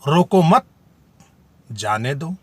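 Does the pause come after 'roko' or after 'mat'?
after mat. There is a pause after 'mat'. It tells someone not to stop. "तीसरे वाक्य में नहीं रोकने को कहा जा रहा है"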